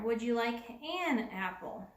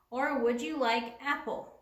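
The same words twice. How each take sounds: First: An stressed before apple; corrected version. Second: Apple said without an; wrong version. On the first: Teacher reads the fixed sentence, stressing an. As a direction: lean on the an. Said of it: "We need the word an in there". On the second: Teacher reads a faulty sentence to show it sounds funny. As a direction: ask it with no an before apple. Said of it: "Sounds a little funny, doesn't it?". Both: Shown as a demonstration.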